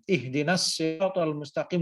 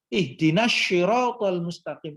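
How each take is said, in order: First: Siratal begins with a heavy s sound. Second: Siratal begins with an sh sound. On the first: It means the path. The speaker calls it right. "dengan menggunakan so" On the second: It means a cassette. The speaker calls it wrong. "di makhrajnya bagian pipi. Sya"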